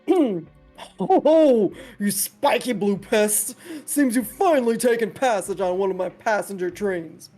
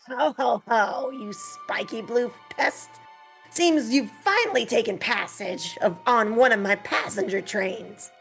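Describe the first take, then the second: First: The voice is deeper, from the chest. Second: The voice is higher, less deep.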